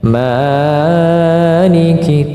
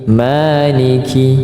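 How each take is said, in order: First: The long vowel is drawn out beyond two beats. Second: The long vowel is held for two beats. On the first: The speaker calls it wrong. "Saking asyiknya maliki tidak boleh" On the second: The speaker calls it right. "tidak boleh lebih dari dua harakat"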